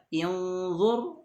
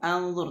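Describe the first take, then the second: First: The word begins with an i vowel. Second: The word begins with an a vowel. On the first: "tidak dibaca inzur atau anzur" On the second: "tidak dibaca inzur atau anzur"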